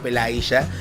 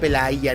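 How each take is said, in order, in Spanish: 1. La consonante del medio suena como la 'sh' del inglés. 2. La consonante del medio suena como la 'y' del inglés. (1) "no Pelaya. Que a ver, en Argentina la Y es sh" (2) "me dijeron que se pronuncia Pelaya"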